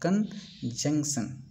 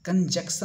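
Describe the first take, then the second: First: The middle n sound is present. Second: The middle n sound is missing. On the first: The speaker calls it right. "एन है" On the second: The speaker calls it wrong. "कंजक्शन नहीं पढ़ेंगे दोस्तों"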